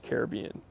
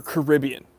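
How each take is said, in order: First: Caribbean said as ka-ruh-BEE-un; stress on third syllable. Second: Caribbean said as kuh-RIB-ee-un; stress on second syllable. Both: Shown as a demonstration. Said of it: "how you want me to put the emphasis".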